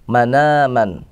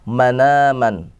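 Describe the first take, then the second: The two takes are said the same way.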